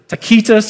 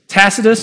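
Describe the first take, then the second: First: The name is given a Latin pronunciation. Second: The name is given an English pronunciation.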